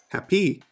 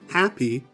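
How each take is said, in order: First: The stress is on the second syllable. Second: The stress is on the first syllable. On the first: The speaker calls it wrong. "Here, the second syllable is clearer and emphasized" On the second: The speaker calls it right. "The first way of saying it, happy, that is correct because the first syllable should be stressed"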